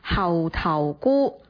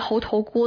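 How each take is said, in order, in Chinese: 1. 这个词用粤语读。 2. 这个词用普通话读。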